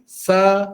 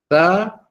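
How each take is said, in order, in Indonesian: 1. Konsonannya bunyi 's' mendesis, lidah di dalam. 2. Konsonannya bunyi 'th', lidah di antara gigi. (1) "Kalau kita tak keluarkan lidah, tak tepat suara tu ya" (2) "Keluarkan sedikit hujung lidah, diletakkan di hujung gigi kacip atas"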